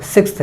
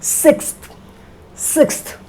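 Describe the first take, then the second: First: "सिक्स्थ" as "sikst", with a short i; wrong pronunciation. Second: "सिक्स्थ" soft, as "sekst" with light final t; correct pronunciation. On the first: Teacher showing what not to say, wrong "सिक्स्थ" as "sikst". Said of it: "सिक्स्थ नहीं". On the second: Teacher modelling for learners, correct "सिक्स्थ" as soft "sekst". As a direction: say "सिक्स्थ" with a more open vowel, "sekst". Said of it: "ऐसा". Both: Shown as a demonstration.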